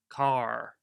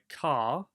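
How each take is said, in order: First: The final R is strongly sounded, American style. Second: The final R is silent, British style. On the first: "But in American, car. That was like very exaggerated" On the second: "you don't really pronounce the R in British English. It's invisible"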